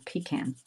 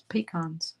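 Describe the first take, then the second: First: Pecan said pi-KAN, second syllable with a flat a as in can; pecan with stress on KAN and a short flat a; local pronunciation. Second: Pecans said pi-KAHNZ, second syllable with a broad ah; pecans with a long broad ah in the second syllable; posh southern pronunciation. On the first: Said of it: "we say". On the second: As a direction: say pecans as pi-KAHNZ, open ah like father. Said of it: "pecan sounds very posh". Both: Shown as a demonstration.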